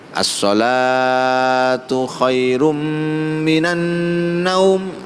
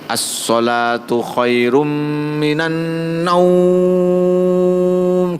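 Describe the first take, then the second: First: The word shalatu is drawn out long. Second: The word naum is drawn out long. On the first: Prayer matters more than sleep. The speaker calls it right. "Sing didawakno lafat salate" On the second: It sounds as if sleep matters more. The speaker calls it wrong. "salate dindekno naume sing didawakno"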